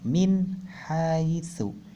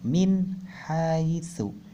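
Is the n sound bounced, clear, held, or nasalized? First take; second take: clear; clear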